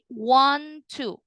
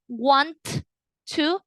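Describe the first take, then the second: First: The T of want is silent and linked. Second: The T of want is pronounced separately. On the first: The speaker calls it right. "the T of one goes silent" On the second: The speaker calls it wrong. "instead of saying want to"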